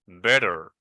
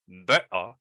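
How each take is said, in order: First: It is said with an American accent. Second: It is said with a British accent. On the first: "better in American pronunciation" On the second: "in British pronunciation, we may say better"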